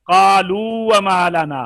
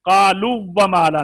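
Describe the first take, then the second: First: कालू with long "oo", then a single light व; slow, loud recitation holding the end of कालू before व; read separately. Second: कालू व run together with a doubled w, "qaluw-wa"; wrongly merged. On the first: Teacher giving second example, कालू held long, व unmerged. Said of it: "मद्दा को अलहदा पढ़ेंगे". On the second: Teacher warning students off the merge, कालू व said as "qaluwwa". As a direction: shorten the end of कालू and press into व. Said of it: "नहीं पढ़ेंगे". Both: Shown as a demonstration.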